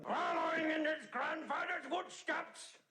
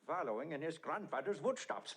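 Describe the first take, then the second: First: Shouted proclamation. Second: Said in the usual way. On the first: Acted. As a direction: announce it like a booming declaration. Repeats phrase, first one shouted.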